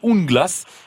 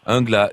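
First: The name is not said the French way. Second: The name is said the French way. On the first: "moi c'est vrai que j'aurais prononcé Unglas" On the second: "Angla, à la française"

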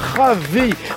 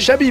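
First: The name is said the Spanish way, harsh 'h'. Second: The name is said the Basque way, 'sh' sound. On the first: The speaker calls it wrong. "chaque fois j'ai voulu le faire à l'espagnol" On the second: The speaker calls it right. "pardon, à la basque"

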